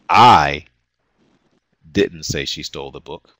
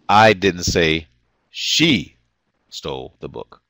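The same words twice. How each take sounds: First: The word "I" carries the main stress. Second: The word "she" carries the main stress. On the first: Someone else said it. "which implies that someone else said she stole the book" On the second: Someone else stole it. "which might imply someone else stole the book"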